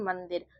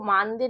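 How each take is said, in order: First: The first vowel is short. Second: The first vowel is long. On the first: The speaker calls it right. "इसको पढ़ते हैं मंदिर" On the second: The speaker calls it wrong. "इसको मानदिर नहीं पढ़ेंगे, इसमें आ की मात्रा नहीं पढ़ेंगे"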